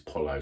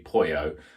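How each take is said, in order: First: The word is pronounced a non-Spanish way. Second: The word is pronounced the Spanish way. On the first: The name is not treated as Spanish. "If it's not, it's Polo" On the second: The name is treated as Spanish. "If it was Spanish, it'd be Pollo"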